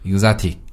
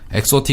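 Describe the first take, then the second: First: The word begins with an 'igz' sound. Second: The word begins with an 'eks' sound. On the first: The speaker calls it right. "이그자틱 이렇게 발음하거든요" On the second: The speaker calls it wrong. "엑소틱 이렇게 발음하지 않고요"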